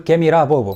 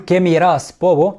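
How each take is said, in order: First: The s sound is dropped. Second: The s sound is pronounced clearly. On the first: "بياكل الاس" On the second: "بدل ما يقول"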